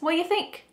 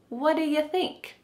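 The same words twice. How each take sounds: First: The word do is left out completely. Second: The word do is reduced to a short duh. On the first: "Do is just gone" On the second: "instead it sounds like duh"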